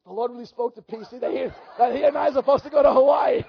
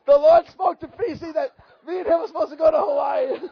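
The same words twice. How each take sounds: First: Laughing quote. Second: Laughing loud repeat. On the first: George telling his wife, laughing. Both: Retold or imitated.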